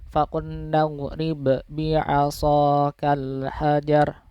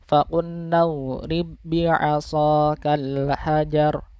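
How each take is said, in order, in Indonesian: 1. Huruf b pertama dilepas dengan memantul. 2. Huruf b pertama langsung menyatu dengan b bertasydid. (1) "bukan seperti itu. Kalau itu kan huruf ba yang sukunnya kan masih nampak" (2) "langsung dimasukkan ke huruf depannya yang bertasydid"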